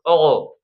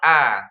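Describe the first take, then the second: First: The vowel sounds thick and dark, like o. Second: The vowel sounds plain and light, like a. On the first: The speaker calls it wrong. "jangan O" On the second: The speaker calls it right. "tapi A. Pangkal lidahnya biasa"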